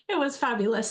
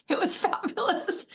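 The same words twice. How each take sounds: First: Said in the usual way. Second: A teary laugh breaks through "fabulous"; laughing through tears. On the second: Real, not acted. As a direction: laugh while still choked up. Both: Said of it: "Didn't expect that to overcome me".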